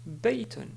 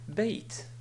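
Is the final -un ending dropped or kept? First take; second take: kept; dropped. First: The word ends with the -un sound. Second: The word ends without the -un sound. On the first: The word is read in full, without stopping. "ce mot ici se prononce baytun" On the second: The speaker stops on this word. "on peut le prononcer d'une manière simple en disant bayt"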